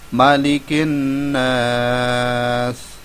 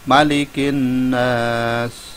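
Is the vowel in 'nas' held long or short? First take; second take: long; short. First: The vowel in 'nas' is held longer. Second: The vowel in 'nas' is held briefly. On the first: "dua alif atau empat harokat agak panjang sedikit" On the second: "kita pakai yang satu alif dulu"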